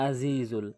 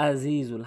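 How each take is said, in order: The two takes are said the same way.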